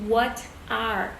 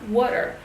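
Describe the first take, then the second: First: The words are said separately without a linking sound. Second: The words are joined into one with an r sound. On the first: "não quer dizer que tá errado você falar what are" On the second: "A gente vai usar o R para fazer isso, então vai ficar water"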